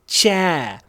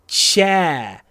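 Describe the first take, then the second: No difference in how they are said.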